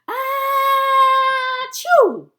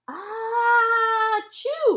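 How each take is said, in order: First: It is said with much more excitement. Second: It is said with only mild excitement.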